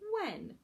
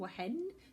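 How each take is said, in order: First: No h sound is pronounced after the w. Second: An h sound is pronounced after the w. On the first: The speaker calls it right. "We say when" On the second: The speaker calls it wrong. "But we don't say wa-hen"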